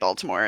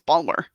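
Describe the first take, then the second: First: The word is said in full, three syllables. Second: The word is shortened to two syllables. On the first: This is how outsiders say the city name. The speaker calls it wrong. "you can't say Baltimore" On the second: This is how locals say the city name. The speaker calls it right. "It's it's Balmer"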